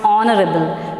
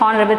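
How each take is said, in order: First: The word starts with a vowel sound. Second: The word starts with an h sound. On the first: The speaker calls it right. "where H is silent" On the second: The speaker calls it wrong. "it's not honorable"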